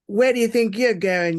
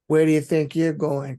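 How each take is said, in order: First: It is said with a stronger Cockney accent. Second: It is said with a milder Cockney accent.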